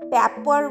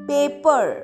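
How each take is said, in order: First: The first vowel is a short 'a' sound. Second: The first vowel is a long 'ay' sound. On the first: The speaker calls it wrong. "আমরা পেপার বলছি না।" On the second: The speaker calls it right. "লং এ হবে, অর্থাৎ এ।"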